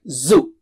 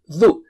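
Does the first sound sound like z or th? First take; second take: z; th. First: It starts with a buzzing z sound. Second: It starts with a tongue-on-teeth th sound. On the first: The speaker calls it wrong. "It's not zoo" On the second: The speaker calls it right. "Touch the tip of the tongue... edge of the top teeth"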